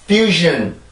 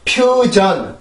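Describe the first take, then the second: First: It is said with English-style sounds and syllables. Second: It is said with Korean-style sounds and syllables. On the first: The speaker calls it right. "퓨전이 아니고 fusion" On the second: The speaker calls it wrong. "한국어처럼 퓨전이라고"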